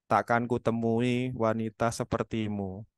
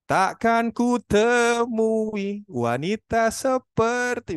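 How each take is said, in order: First: The pitch stays flat with no melody. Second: The pitch rises and falls with melody. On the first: The speaker calls it wrong. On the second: The speaker calls it right.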